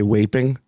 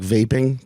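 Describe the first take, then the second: First: The word begins with a W sound. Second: The word begins with a V sound. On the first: "they switch the pronunciations of V's and W's ... they would say waping" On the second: "if they were talking about like vaping"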